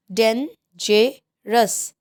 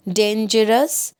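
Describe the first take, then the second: First: "dangerous" very slowly in three separate beats; syllable by syllable. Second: Said in the usual way. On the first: Shown as a demonstration. Teacher showing three syllables, "dangerous" drawn out and split. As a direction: break "dangerous" slowly into dan, ge, rous. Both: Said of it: "three syllables".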